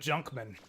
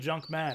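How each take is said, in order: First: The stress falls on Junk as one word. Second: Both parts are stressed, with Man prominent. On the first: The speaker calls it right. "It turns out he was the Junkman" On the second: The speaker calls it wrong. "I've been saying it wrong this whole time. I thought he was the Junk Man"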